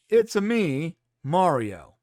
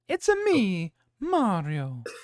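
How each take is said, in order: First: It is said in a plain American voice. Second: It is said with an Italian accent. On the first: "now let's do it with Chris Chris Pratt's voice" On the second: "let's do the popular line with and without the accent"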